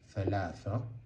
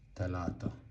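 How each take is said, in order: First: It has soft th sounds. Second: It has plain t sounds. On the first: This is the Standard Arabic form. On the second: This is the spoken Sudanese Arabic form.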